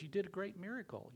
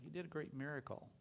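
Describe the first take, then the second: First: Higher, awed praise; amazed congratulation; a fellow knight in wonder; marvelling. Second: Said in the usual way. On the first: Retold or imitated. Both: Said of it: "lays his hand on him and says".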